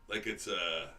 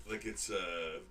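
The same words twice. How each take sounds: No difference in how they are said.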